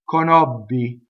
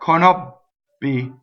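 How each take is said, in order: First: The double B is held with the voice continuing. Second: The double B stops sharply, like a double T. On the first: The speaker calls it right. "So correct" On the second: The speaker calls it wrong. "Incorrect, conobbi. Doing it like a double T"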